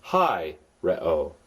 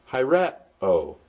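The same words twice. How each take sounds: First: "hi, re-o" with HI stressed, re-o falling away lower; accent the first syllable of "hi, re-o". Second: "hi, re-o" with RE lifted, then o dropping; accent the second syllable of "hi, re-o"; stress on RE. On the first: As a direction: hit "hi", then drop down on "re-o". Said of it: "this was the way this word was accented". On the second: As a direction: punch the middle syllable "re" in "hi, re-o". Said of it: "then I would pronounce it". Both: Shown as a demonstration.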